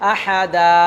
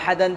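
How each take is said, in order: First: The word ends with a lengthened a vowel. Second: The word ends with an n sound. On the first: The speaker calls it right. "টেনেই থামতে" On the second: The speaker calls it wrong. "আহাদান বলে থামা যাবে না"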